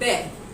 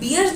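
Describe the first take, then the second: First: The vowel sounds like the one in 'bare'. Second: The vowel sounds like the one in 'beer'. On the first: The speaker calls it right. "The correct pronunciation for the word बियर will be बेर" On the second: The speaker calls it wrong. "That is totally an incorrect pronunciation"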